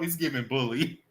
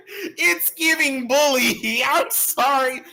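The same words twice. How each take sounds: First: Said in the usual way. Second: Very high, drawn-out playful squeal; high-pitched squeal. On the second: Pretend. Streamer apologizing to viewers for bullying, high laughing squeal. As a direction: squeal it out slowly through giggles.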